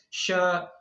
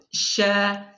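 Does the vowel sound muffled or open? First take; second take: muffled; open. First: The mouth stays nearly closed, so the sound is muffled. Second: The jaws open wide, so the sound is open. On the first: The speaker calls it wrong. "dia tidak menyempurnakan itmamul harokat tadi" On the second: The speaker calls it right. "ya seharusnya demikian"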